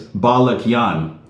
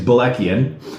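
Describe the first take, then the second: First: The name is said with its original, non-Americanized pronunciation. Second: The name is said with an Americanized pronunciation. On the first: This is the name's original form. "the correct way" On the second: This is the everyday version used in America. "the Americanized pronunciation that I say"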